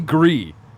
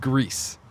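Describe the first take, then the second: First: The word ends without an s sound. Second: The word ends with an s sound. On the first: This is the technically correct form. "Technically Gree" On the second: This is the form everyone uses. "everyone says Greece"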